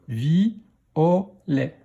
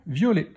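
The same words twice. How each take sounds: First: "vi, o, lait" as three separate beats; syllable by syllable. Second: Said in the usual way. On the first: Shown as a demonstration. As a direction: sound out "vi, o, lait". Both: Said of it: "dans quelle syllabe".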